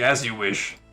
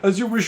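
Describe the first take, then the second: First: It is said in a calm, indifferent way. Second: It is said in a nervous, fearful way. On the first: The speaker simply accepts the terms without fear. "he's like cool about it" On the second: The speaker is intimidated and eager to please. "they're all like scared about it"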